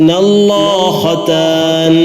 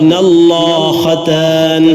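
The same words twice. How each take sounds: The two takes are said the same way.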